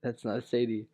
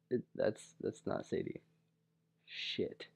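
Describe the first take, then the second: First: Said in the usual way. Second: Hushed, breathy panic under the breath; horrified whisper. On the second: Retold or imitated. Whispering to himself after hugging the wrong girl, panicked whisper. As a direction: whisper it as the mistake sinks in.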